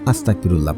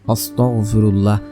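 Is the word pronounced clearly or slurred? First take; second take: slurred; clearly. First: The word is said loosely, with sounds blurred. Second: The word is said carefully, with every sound clear. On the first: The pronunciation is not correct. The speaker calls it wrong. "ইস্তেগফার পড়ার ক্ষেত্রে অনেকে ভুল করেন" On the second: The pronunciation is correct. The speaker calls it right. "আপনারা পড়বেন"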